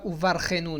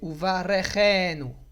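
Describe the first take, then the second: First: The r runs straight into the next sound. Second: A short vowel is heard after the r. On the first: The speaker calls it wrong. "C'est pas uvarchenu non plus" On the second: The speaker calls it right. "le resh, il va être prononcé avec un sheva na"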